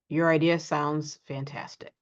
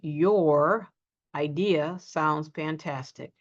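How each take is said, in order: First: The words are reduced and run together. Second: Each word is said fully and separately. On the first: The speaker calls it right. "We run it together, reduce" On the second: The speaker calls it wrong. "we don't often say"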